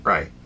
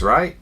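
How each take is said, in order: First: Right. said as a settled statement with a falling tune; confirming right. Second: Right? asked with a rising question tune. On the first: Teacher showing how inflection changes meaning, falling statement. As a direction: state Right. firmly, as if agreeing. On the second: Teacher showing how inflection changes meaning, rising question. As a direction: turn right? into a puzzled question. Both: Shown as a demonstration. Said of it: "I can make the same word mean two different things".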